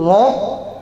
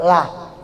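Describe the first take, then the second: First: The vowel is heavy and dark, like 'oh'. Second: The vowel is light and clear, like 'ah'. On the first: The letter before it has a fatha or dhamma. "Satu loh" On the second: The letter before it has a kasra. "satu lah"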